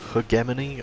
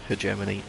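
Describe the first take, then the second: First: The word uses the non-American pronunciation. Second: The word uses the American pronunciation. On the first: Other people say it this way. "I've heard" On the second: The speaker prefers saying it this way. "that's the way I like saying it"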